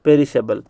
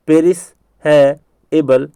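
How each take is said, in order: First: Said in the usual way. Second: "पेरिश है एबल" as three separated words; broken into parts. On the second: Shown as a demonstration. Teacher's last drill of perishable, broken into parts. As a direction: put a pause after each part of "पेरिश है एबल". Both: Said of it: "याद करवाने के लिए मैं कह रहा हूँ ऐसा".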